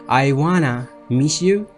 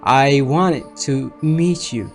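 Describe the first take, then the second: First: The T sound in 'want to' is dropped. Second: The T sound in 'want to' is pronounced.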